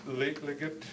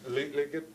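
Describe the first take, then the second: No difference in how they are said.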